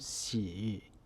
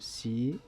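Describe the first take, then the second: First: The tone dips low and rises again. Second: The tone rises from mid to high. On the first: "The third tone 洗" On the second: "becomes the second tone 习"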